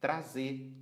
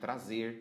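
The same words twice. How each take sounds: First: The final R sound is left off. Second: The final R sound is clearly pronounced. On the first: The speaker calls it wrong. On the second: The speaker calls it right.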